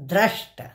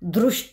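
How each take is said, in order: First: The first syllable has an 'a' vowel sound. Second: The first syllable has a 'ri' vowel sound. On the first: The speaker calls it right. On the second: The speaker calls it wrong. "दृष्ट नाही"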